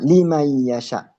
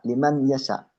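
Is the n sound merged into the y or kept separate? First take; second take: merged; separate. First: The n merges, nasalized, into the following y. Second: The n is pronounced separately before the y. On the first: The speaker calls it right. "dimasukkan nun sukun atau tanwinnya tersebut dimasukkan ke belakangnya" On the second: The speaker calls it wrong. "bukan dibaca liman yasha"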